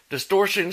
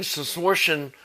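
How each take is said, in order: First: Said in the usual way. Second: "distortion" garbled into "schmistortion"; dismissive mock rhyme. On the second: Imagined amp makers shrugging off the flaw, "distortion" mockingly turned to "schmistortion". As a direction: say "distortion" with a schm- sound replacing its first consonant.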